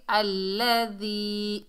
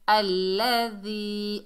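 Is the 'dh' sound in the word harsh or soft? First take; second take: soft; soft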